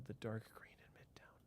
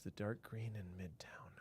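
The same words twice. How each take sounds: First: Soft whisper while looking. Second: Whispered to himself while searching; a thinking whisper. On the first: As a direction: say it under the breath. Repeats chat question again. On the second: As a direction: whisper the question under the breath. Repeats chat question to himself. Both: Real, not acted.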